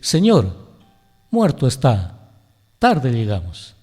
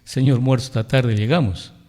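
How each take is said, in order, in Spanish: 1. La primera pausa va después de 'señor'. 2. La primera pausa va después de 'muerto'. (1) "el otro es buen lector y dice" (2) "aquel alumno que dice"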